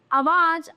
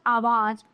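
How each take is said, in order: First: आवाज with a short first vowel; आवाज said as "awaaj", pitched up; wrong pronunciation. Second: आवाज with a long opening "aa"; lower, settled आवाज with full first vowel; आवाज said as "aawaaj"; correct pronunciation. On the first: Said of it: "ये भी गलत है, ये सही है". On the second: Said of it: "ये सही है". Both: Shown as a demonstration.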